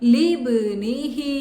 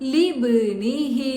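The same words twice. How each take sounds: The two takes are said the same way.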